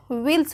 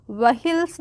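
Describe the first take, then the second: First: व्हील्स as "veels", the h silent; correct pronunciation. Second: व्हील्स as "va-hils", the h sounded; wrong pronunciation. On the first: Teacher tells learners how to read it, correctly pronounced. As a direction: say व्हील्स in one syllable without an h. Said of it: "व्हील्स पढ़ेंगे". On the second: Teacher warns learners off this reading, mispronounced with h. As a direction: split व्हील्स in two with an audible h. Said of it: "व्हील्स नहीं पढ़ेंगे". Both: Shown as a demonstration.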